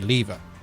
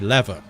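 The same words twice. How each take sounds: First: It is said with a Canadian pronunciation. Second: It is said with an American pronunciation. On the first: "Canadians say lever" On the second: "Americans say lever"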